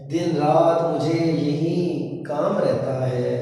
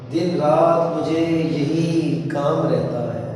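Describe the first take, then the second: Both takes have the same delivery.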